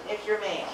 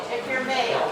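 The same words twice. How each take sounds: First: Said in the usual way. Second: Speaking up for the room; raised voice over the crowd; louder. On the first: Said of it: "Can you talk louder". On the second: Real, not acted. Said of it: "Can you talk louder, please?".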